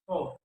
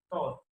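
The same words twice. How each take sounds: First: Said in the usual way. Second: "thought" with t for th; learner's mispronunciation. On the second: Shown as a demonstration. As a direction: say "thought" as "taught". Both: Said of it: "is pronounced".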